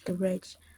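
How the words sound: It is said with an American accent. "and American accent is"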